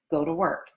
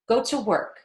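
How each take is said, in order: First: The T in 'to' is a light D. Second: The T in 'to' is popped and choppy. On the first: The speaker calls it right. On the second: The speaker calls it wrong.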